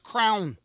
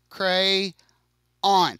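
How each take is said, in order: First: The word is squeezed into one syllable. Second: The word is said with two syllables. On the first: This is how some other people say it. "I do not pronounce this as a crown" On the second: This is how the speaker's Alabama family says it. "I pronounce this as a cray on"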